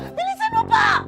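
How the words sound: It is shouted in a frantic, panicked voice.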